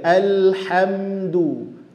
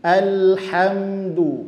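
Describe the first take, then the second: No difference in how they are said.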